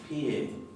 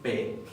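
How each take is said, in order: First: A y-glide comes between p and the vowel. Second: The vowel follows p directly, without a glide. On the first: The speaker calls it right. "digo pie" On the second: The speaker calls it wrong. "no digo P"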